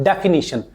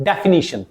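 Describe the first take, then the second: The two takes are said the same way.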